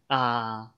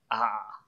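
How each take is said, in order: First: Ah held level at mid pitch, in third tone. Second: Ah said low and falling, in fourth tone. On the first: Teacher shows what can follow a question, level third-tone ah. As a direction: keep ah level, not dropping. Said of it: "the third tone". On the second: Teacher shows what cannot follow a question, low fourth-tone Ah. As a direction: let Ah drop low. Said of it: "you cannot use fourth tone here". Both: Shown as a demonstration.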